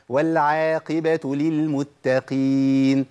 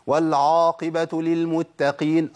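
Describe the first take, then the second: First: "والعاقبة" بعين مرققة ببطء; رقق العين في "والعاقبة"; light ain. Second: "والعاقبة" بعين مفخمة "عا"; فخّم العين في "والعاقبة" خطأ; heavy ain. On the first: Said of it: "قلنا آه مش في القرآن". (عين مرققة صحيحة) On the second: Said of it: "كتير من الناس يقول". (عين مفخمة خطأ) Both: Shown as a demonstration.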